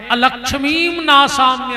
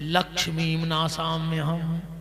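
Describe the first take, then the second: First: The first word begins with an 'a' sound. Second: The first word begins without an 'a' sound. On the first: Asking for misfortune to be destroyed. The speaker calls it right. "शुद्ध उच्चारण।" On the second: Asking for one's own wealth to be destroyed. The speaker calls it wrong. "जल्दी में पढ़े"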